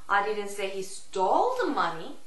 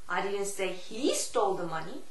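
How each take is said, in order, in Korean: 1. 강세는 'stole' 단어에 옵니다. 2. 강세는 'he' 단어에 옵니다. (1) "Stole의 강세를 주느냐" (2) "He의 강세를 주느냐"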